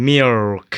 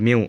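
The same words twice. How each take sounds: First: "milk" drawn out with a clear final k; correct pronunciation. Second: "milk" said as "miw", no l or k; common mispronunciation. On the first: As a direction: say "milk" slowly as "mi-ulk", releasing the k. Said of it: "แต่จริงๆมันอ่านว่า". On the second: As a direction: say "milk" ending in a w glide. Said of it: "ส่วนใหญ่จะ". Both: Shown as a demonstration.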